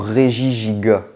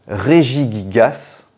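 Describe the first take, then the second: First: The word ends without any s sound. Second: The final s is pronounced at the end. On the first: The speaker calls it right. "on doit dire régigiga" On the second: The speaker calls it wrong. "Fallait pas dire le S"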